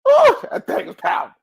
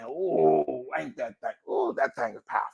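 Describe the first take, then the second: First: High, loud burst of awe; excited awe. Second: Soft, real awed reaction; hushed awe. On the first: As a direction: exclaim it, really bowled over. Repeats awed reaction with force. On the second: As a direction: marvel quietly to yourself. Awed reaction to own saying. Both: Real, not acted.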